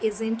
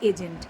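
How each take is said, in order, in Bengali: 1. মাঝের ব্যঞ্জনটা z-এর মতো বলা হয়। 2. মাঝের ব্যঞ্জনটা j-এর মতো বলা হয়। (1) "অনেকেই কথাটাকে এজেন্ট এজেন্ট বলছে" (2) "উচ্চারণটা জ এক্ষেত্রে"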